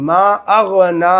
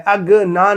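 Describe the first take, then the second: First: اغنی with ghain from the throat; correct ghain. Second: Plain g in اغنی, no throat friction; wrong ghain. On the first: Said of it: "اغنی پڑھنا ہے". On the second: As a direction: say اغنی with a hard g stop. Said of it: "اغنی نہیں". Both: Shown as a demonstration.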